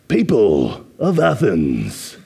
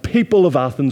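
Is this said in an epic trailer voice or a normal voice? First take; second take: epic trailer; normal. First: It is said in a deep, dramatic trailer voice. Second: It is said in an ordinary speaking voice.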